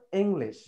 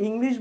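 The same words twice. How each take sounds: First: ইংলিশ with e sounds, "eng-lesh"; actual pronunciation. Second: ইংলিশ with i sounds, "ing-lish"; common pronunciation. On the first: Teacher gives guardians the actual pronunciation, "eng-lesh". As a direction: open both vowels of ইংলিশ to "eng-lesh". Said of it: "আমাদের actual প্রনাউন্সিয়েশনটা হলো". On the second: Teacher quotes the common way we say it, "ing-lish". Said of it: "ইংলিশ common যেটা আমরা বলি". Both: Shown as a demonstration.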